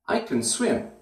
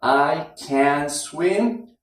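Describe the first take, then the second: First: Can reduced to a schwa; weak can. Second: Slow careful strong can; full vowel can. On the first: Teacher showing the relaxed schwa in can. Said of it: "It's can". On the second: Teacher showing the full vowel in can, slow and careful. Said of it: "The ah sound is gone out of there". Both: Shown as a demonstration.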